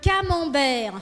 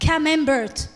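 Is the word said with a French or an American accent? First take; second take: French; American. First: It is said with a French pronunciation. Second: It is said with an American pronunciation.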